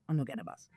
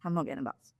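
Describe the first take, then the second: First: Quiet. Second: Said in the usual way. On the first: Retold or imitated. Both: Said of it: "repeated for emphasis".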